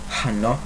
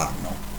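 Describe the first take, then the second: First: It begins with an audible h sound. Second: It begins directly with a vowel. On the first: The speaker calls it wrong. "don't pronounce the ho, hi, ha, hanno" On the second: The speaker calls it right. "but o, I, a, anno"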